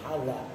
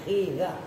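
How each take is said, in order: First: The first vowel is an 'a' sound. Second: The first vowel is an 'i' sound. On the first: The speaker calls it wrong. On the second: The speaker calls it right. "dengan dibaca kasroh ha'nya"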